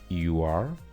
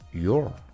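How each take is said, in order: First: Two separate words are said in full. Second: The words are joined into one contracted sound. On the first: The speaker calls it wrong. "En vez de decir" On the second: The speaker calls it right. "mejor di"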